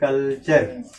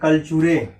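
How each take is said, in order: First: It ends on the r with no extra vowel. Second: It ends with an extra vowel after the r. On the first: The speaker calls it right. "अगर हमको जानकारी होगी तो क्या पढ़ेंगे?" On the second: The speaker calls it wrong. "अगर ये क्या पढ़े?"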